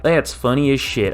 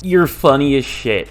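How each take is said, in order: First: Mock southern delivery; southern accent. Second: Slight southern twang; southern accent. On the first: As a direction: replay it with a southern twang. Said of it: "a southern accent there. I was like". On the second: Real, not acted. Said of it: "gained, like, a southern accent there".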